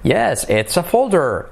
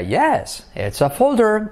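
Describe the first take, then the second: First: "folder" high then falling; slower, peak on "folder"; intonation demo. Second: High peak on "folder"; "Yes, it's a folder" with a high rising peak on folder; intonation demo. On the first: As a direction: mark the high point on folder then fall. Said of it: "el punto alto de la frase". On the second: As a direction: lift "folder" to the high point after "Yes". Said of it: "entonación diríamos una partícula inventada". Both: Shown as a demonstration.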